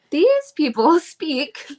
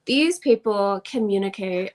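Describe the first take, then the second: First: Slow, laughing retake of "These people" without the Southern drawl; laughing, deliberate careful retake; laughing correction. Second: A slight Southern drawl on "communicate"; faint unplanned Southern drawl. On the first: Shown as a demonstration. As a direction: redo it carefully while laughing at herself. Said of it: "not in a Southern drawl". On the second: Real, not acted. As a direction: let a touch of Southern drawl slip into "These people communicate". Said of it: "my Southern drawl just came out there a little bit".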